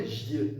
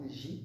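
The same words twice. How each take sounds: First: "J" wrongly said with a y-glide, like "jyeu". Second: "J" said "ji", with a clean ee vowel; pure I sound. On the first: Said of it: "non, J, euh, comme un I". (« J » mal prononcé, avec le son yeu) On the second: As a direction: end "J" on a plain i, no glide. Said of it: "comme un I". (« J » prononcé « ji », comme un I) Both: Shown as a demonstration.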